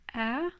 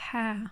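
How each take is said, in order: First: It starts straight on the vowel, without h. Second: It starts with an audible breathy h sound. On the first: The speaker calls it wrong. "elles vont dire A au lieu de ha" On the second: The speaker calls it right. "au lieu de ha"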